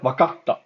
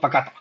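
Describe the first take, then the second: First: A short pause holds the t before 'ta'. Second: The t follows at once with no pause. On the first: The speaker calls it right. "if you s- find a small tsu, it's a pause" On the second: The speaker calls it wrong. "not wakata"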